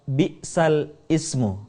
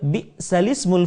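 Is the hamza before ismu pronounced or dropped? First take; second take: pronounced; dropped. First: The hamza is pronounced before ismu. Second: The hamza is dropped and the vowel joins the l. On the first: "berasal dari kata bi'sal ismu" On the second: "harokat hamzah pada kata al-ismu dipindahkan ke huruf sukun sebelumnya"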